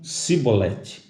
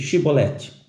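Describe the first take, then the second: First: The word begins with an 's' sound. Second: The word begins with an 'sh' sound. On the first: The speaker calls it wrong. "não podiam pronunciar bem essa palavra" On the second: The speaker calls it right. "dize Shibolete"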